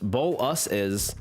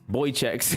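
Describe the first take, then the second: First: The word is said as boh-luh-sis. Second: The word is said as boy-checks. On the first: The speaker calls it right. "Just say boluses" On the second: The speaker calls it wrong. "You really chose a hell of a time to take that pronounce"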